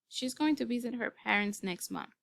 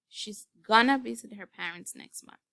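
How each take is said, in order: First: Going to is said in full. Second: Going to is reduced to gonna. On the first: "Let's say we have" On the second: "The reduction is going to be"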